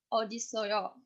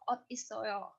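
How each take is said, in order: First: A d sound, linked smoothly into the next word. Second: A clear t sound, not linked to the next word. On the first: "Pengucapannya berubah jadi d" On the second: "Jadi ada spasi gitu. Otnya itu nggak uh, dilanjutin"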